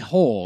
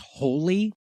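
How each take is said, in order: First: The name is said with one syllable. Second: The name is said with two syllables. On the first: The speaker calls it wrong. "They pronounce it wrong throughout the whole movie" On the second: The speaker calls it right. "Holy is how it should be pronounced"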